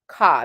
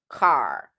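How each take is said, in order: First: The final R is dropped, British style. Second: The final R is pronounced, American style.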